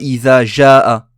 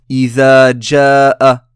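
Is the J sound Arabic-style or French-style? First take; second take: French-style; Arabic-style. First: The J is a soft French-style sound. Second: The J is the Arabic jim sound. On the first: The speaker calls it wrong. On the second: The speaker calls it right.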